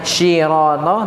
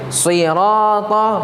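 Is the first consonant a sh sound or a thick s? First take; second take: sh; thick s. First: The first consonant sounds like sh. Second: The first consonant is a thick, raised s. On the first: The speaker calls it wrong. "bukan syirata" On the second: The speaker calls it right. "huruf shad"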